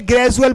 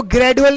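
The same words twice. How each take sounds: First: J sound in ग्रेजुअल, GRAJ-u-al; correct pronunciation demo. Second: Hard d in ग्रेजुअल, GRAD-u-al; wrong pronunciation demo. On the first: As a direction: say ग्रेजुअल with j replacing the d. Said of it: "बोलेंगे". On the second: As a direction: say ग्रेजुअल with d instead of j. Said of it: "ग्रेजुअल बोलेंगे". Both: Shown as a demonstration.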